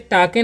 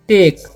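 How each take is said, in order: First: It is said as two syllables, 'tah-keh'. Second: It is said as one syllable, 'tayk'. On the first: The speaker calls it wrong. "इसे टाके नहीं पढ़ना है" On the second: The speaker calls it right. "ए का उच्चारण ए होता है तो इसे हम पढ़ेंगे टेक"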